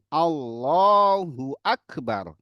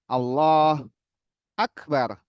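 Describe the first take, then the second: First: The two words run together without a break. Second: The voice stops between the two words. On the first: The speaker calls it right. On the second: The speaker calls it wrong. "Nggak boleh"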